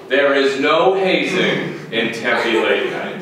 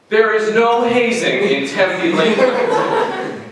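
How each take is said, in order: First: Slow, measured official denial; deliberate disclaimer. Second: Slow, raised-pitch insistence; emphatic disclaimer. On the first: Host gives one last note on hazing, slow and deliberate. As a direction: say it slowly, every word separate. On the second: Host insists to audience on no hazing, slow and emphatic. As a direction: drag out the denial, higher and firm. Repeats the disclaimer about pledge auditions. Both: Acted.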